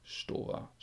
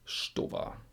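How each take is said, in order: Both takes have the same delivery.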